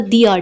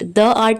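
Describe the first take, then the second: First: 'The' is said with a long 'ee' vowel. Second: 'The' is said with a short 'uh' vowel. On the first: The speaker calls it right. "दी art होगा, क्योंकि art में ए vowel है" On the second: The speaker calls it wrong. "द art नहीं होगा"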